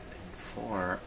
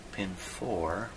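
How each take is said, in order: Both takes have the same delivery.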